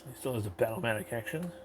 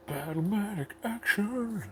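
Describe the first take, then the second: First: Said in the usual way. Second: Slow, high, booming toy ad voice; commercial announcer. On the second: Acted. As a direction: announce Battlematic action like an eighties ad. Announcer take of same words.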